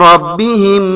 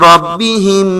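Both takes have the same delivery.

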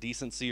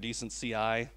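First: It ends with a single syllable, like 'decency'. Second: It ends with the letters C and I spelled. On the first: "whether to pronounce it decency" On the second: "or decent CI"

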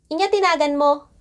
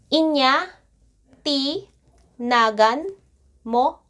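First: It is said at normal speed. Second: It is said slowly.

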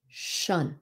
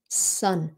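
First: The syllable starts with an sh sound. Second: The syllable starts with a plain s sound. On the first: The speaker calls it right. "chứ không phải là shun" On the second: The speaker calls it wrong. "Người Việt mình hay nói là sun"

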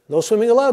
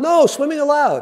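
First: It is said without a pause after no. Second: There is a pause after no.

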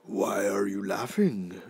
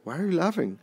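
First: It is said in a non-falsetto voice. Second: It is said in a shaky falsetto voice.

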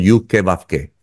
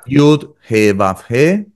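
First: The repeated letter name begins with a k sound. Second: The repeated letter name begins with an h sound. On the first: This substitute form avoids pronouncing the full name. "no pronunciamos el nombre completo porque atrae mucha energía" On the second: This is the name's actual pronunciation. "lo digo ahora pronunciado correctamente"

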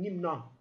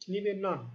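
First: No vowel links the two words. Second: An added e sound links the two words. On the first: The speaker calls it right. "Yani izafe yok. Yani e sesi vermeden okunuyor" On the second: The speaker calls it wrong. "O öyle değil mi?"

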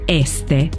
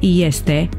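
First: The word begins with a plain 'e' sound. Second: The word begins with a 'ye' sound. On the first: The speaker calls it wrong. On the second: The speaker calls it right. "pronunțăm"

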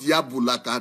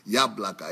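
First: An extra vowel sounds between the b and l. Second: The b and l join with no vowel between. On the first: The speaker calls it wrong. "Not Yabulaka" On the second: The speaker calls it right.

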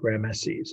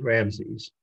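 First: The name is said with three syllables. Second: The name is said with two syllables.

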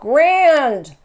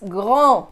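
First: A D sound is pronounced at the end. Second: No D sound is pronounced at the end. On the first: The speaker calls it wrong. "so it's not grand" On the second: The speaker calls it right. "it's grand. No D"

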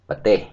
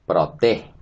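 First: The word is said in a short, reduced form. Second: The word is said in its full form. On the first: This is the form used in everyday speech. The speaker calls it right. "But for speaking, we say Pateh" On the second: This is the form used in writing. The speaker calls it wrong. "So that we don't say Proteh"

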